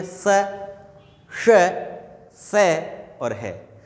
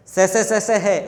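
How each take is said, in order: First: "स, श, से और है" as separate sounds with clear pauses; correct sibilant demonstration. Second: "से, से, से, से है" rattled off as one identical sound; wrong, undifferentiated sibilants. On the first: Teacher modelling fricatives for students, "स, श, से और है" spaced and distinct. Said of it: "इसका उच्चारण कैसे होना चाहिए". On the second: Teacher showing students what to avoid, "से, से, से, से है" run together identically. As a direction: run "से, से, से, से है" together without pauses, all alike. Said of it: "ऐसे नहीं बोलना है आपको". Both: Shown as a demonstration.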